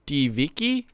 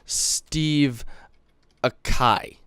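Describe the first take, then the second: First: It is said as one run-together word. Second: It is said as two separate words. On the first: The speaker calls it right. "but it's actually Steviki" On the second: The speaker calls it wrong. "I thought it was Steve Akai, like that"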